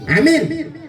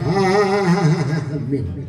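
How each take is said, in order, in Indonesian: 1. Diucapkan pendek dan penuh semangat. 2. Diucapkan panjang dan ditahan terlalu lama. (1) "Semangat istrinya tuh"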